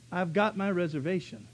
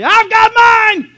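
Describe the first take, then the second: First: Said in the usual way. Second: Slow, much higher, louder gloating shout; triumphant shout. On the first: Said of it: "He said". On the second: Retold or imitated. Saved believer gloating at the world, loud shout. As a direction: crow it over everybody. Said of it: "and say".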